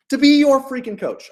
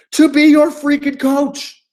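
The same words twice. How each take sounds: First: Said in the usual way. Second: Higher, louder and slow on freaking coach; emphatic line. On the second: Shown as a demonstration. Coach hypes the pitch line, slow and emphatic. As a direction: lean hard into to be your freaking coach. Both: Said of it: "I don't say freaking".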